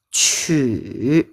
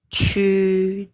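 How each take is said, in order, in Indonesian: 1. Nadanya turun lalu naik. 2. Nadanya tetap datar. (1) "kalau turun naik" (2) "nada pertama ya kan mendatar"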